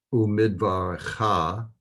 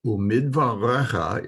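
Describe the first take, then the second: First: "Umidvarecha" with a shortened e and long final -CHA; pronounced-form pronunciation. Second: "Umidvarecha" with a full stressed RE before -cha; written-form pronunciation. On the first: Teacher contrasting the spoken Hebrew form, careful pronunciation. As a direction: say "Umidvarecha" leaning on the last syllable. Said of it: "is the way it's pronounced". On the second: Teacher contrasting the written Hebrew form, careful pronunciation. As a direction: say "Umidvarecha" leaning on the second-last syllable. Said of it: "is the way it's written". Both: Shown as a demonstration.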